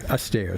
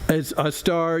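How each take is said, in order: First: It sounds like the single word 'aster'. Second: It sounds like the English words 'a star'. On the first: The speaker calls it right. "You say it more like this guy's last name" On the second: The speaker calls it wrong.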